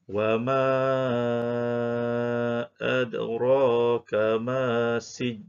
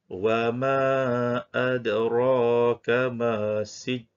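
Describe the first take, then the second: First: The long vowel is held for five counts. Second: The long vowel is held for two counts. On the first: "Sekiranya kita baca dengan lima harakat" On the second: "dibaca dengan dua harakat"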